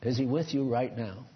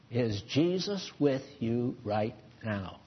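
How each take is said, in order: First: Said in the usual way. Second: Leise und langsam, eindringlich gefragt; quieter, slower question. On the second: Shown as a demonstration. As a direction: drop the voice and slow right down.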